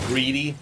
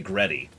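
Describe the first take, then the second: First: The first vowel sounds like 'ee' in see. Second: The first vowel sounds like 'e' in bed. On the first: "It would be spelled greedy" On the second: "it'd be pronounced Greddy"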